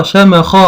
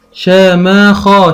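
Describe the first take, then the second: First: Said in the usual way. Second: شماخا stretched out slowly; slow, split reading. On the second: Shown as a demonstration. Teacher sounding out for a child, slowly. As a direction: draw شماخا out. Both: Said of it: "عندي مثلًا أقول".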